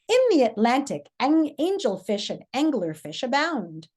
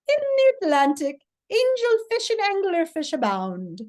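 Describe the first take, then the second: First: It is said in a neutral voice. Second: It is said in an optimistically happy voice.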